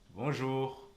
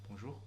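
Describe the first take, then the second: First: It sounds warm, eager and attentive. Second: It sounds like a detached goodbye.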